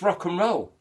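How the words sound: The words run together as one word. The speaker calls it right. "like one word, three syllables"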